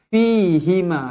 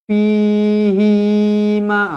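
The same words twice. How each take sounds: First: The hi vowel is kept short. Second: The hi vowel is stretched long. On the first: The speaker calls it right. "Hi ni satu harakat sahaja" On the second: The speaker calls it wrong. "jangan baca fihima. Ah, salah"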